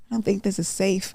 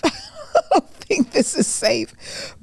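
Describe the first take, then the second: First: Said in the usual way. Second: Much higher and slow, laughing through it. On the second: Retold or imitated. Joking about the dungeon gym, laughing high and slow. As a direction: crack up while saying it.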